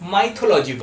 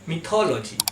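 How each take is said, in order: First: The first syllable has the vowel 'eye'. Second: The first syllable has a short 'ih' vowel. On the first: The speaker calls it wrong. "আমরা সবাই করে থাকি মাইথোলজি বলে" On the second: The speaker calls it right. "Correct pronunciation হলো মিথোলজি"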